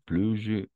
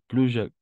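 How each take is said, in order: Both takes have the same delivery.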